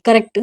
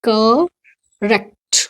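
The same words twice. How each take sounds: First: करेक्ट as people commonly misread it; wrong pronunciation. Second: करेक्ट stretched very slowly, "ka-rekt"; correct pronunciation. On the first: Teacher showing students how some people mispronounce करेक्ट. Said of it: "कुछ लोग इसको क्या बोल देते हैं". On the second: Teacher slowly modelling the correct करेक्ट. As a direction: spell out करेक्ट slowly, sound by sound. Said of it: "तो इसका क्या होता है". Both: Shown as a demonstration.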